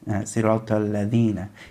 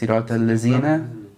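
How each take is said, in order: First: The middle consonant is a 'dh' sound. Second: The middle consonant is a 'z' sound. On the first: The speaker calls it right. "he needs to read with Dal" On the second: The speaker calls it wrong. "He can't say al-lazina"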